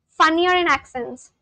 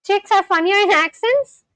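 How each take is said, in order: First: Said in the usual way. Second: Higher-pitched question, rising on "accents"; questioning echo. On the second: Real, not acted. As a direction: query the claim "funnier in accents". Questions the corrected comment.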